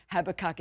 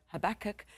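First: Habakkuk with an Australian accent, stress on the first syllable, HAB-a-kahk; strong Australian pronunciation. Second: Habakkuk stressed on the second syllable, huh-BACK-uk; imitating listeners' pronunciation. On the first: Shown as a demonstration. Preacher owning Habakkuk for the listeners, strong Australian pronunciation. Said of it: "saying it with a strong Australian accent". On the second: Preacher mimics how you all say Habakkuk, second syllable stressed. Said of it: "even though you all go".

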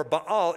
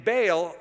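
First: "Baal" as bah-AHL; two-syllable variant. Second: "Baal" as BAYL; one-syllable variant. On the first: Teacher defining the word for God, "Baal" pronounced bah-AHL. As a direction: say "Baal" with two ah vowels, stressed last. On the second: Teacher defining the word for God, "Baal" pronounced BAYL. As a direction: say "Baal" to rhyme with "pale". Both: Shown as a demonstration. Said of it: "Baal or Baal is the general word".

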